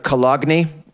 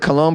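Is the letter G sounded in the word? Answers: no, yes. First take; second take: yes; no. First: The G is sounded in the word. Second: The G is silent in the word. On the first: This is how the spelling suggests it sounds. "it really looks like" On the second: This is how people usually say it. "how we pronounce it"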